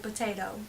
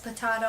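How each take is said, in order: First: It is pronounced the usual American way. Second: It is pronounced a non-American way. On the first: "because I live in America and I am an American" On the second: "an American who says potato"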